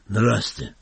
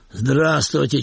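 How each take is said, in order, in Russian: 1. Приветствие произнесено тихо и угрюмо. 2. Приветствие произнесено чуть громче. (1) "почесал шею и хмуро ответил" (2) "чуть громче произнес"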